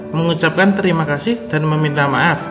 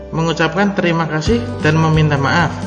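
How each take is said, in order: Both takes have the same delivery.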